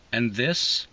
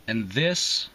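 Both takes have the same delivery.

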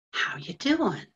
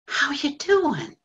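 First: Earnest greeting. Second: Pained echo. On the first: Acted. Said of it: "like he really needs to know". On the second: Retold or imitated. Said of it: "ever since he said that".

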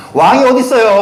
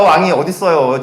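First: Higher, louder pointed question; emphatic rhetorical question; incredulous outburst. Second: Said in the usual way. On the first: Real, not acted. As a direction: fling it at the crowd in disbelief. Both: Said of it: "repeated rhetorical question".

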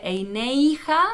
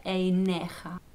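First: "Eineija" with an ei diphthong before the j; wrong pronunciation with the Yud sounded. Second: "Eineja" with a plain e, the Yud silent; right way. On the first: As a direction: glide into "ei" in "Eineija". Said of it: "No se dice". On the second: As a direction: say "Eineja" slowly and a little softer. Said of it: "se dice". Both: Shown as a demonstration.

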